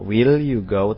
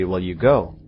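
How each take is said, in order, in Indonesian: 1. Kata 'will' diucapkan dengan hati-hati dan lengkap. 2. Kata 'will' diucapkan dengan cara santai sehari-hari. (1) "Enggak will you go" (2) "dalam pengucapan sehari-hari, mereka membacanya dengan will"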